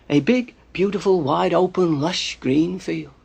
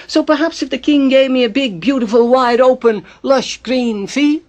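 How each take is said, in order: First: Said in the usual way. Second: Higher, louder, hopeful wheedling; angling for reward. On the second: Acted. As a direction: stretch out the wish list grandly, pitched up. Spider angles for a royal reward.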